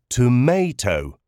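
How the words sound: It is said with an American pronunciation. "which is the typical American pronunciation"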